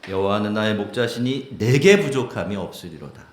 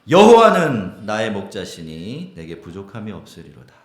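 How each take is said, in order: First: The stress falls on 내게. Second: The stress falls on 여호와는.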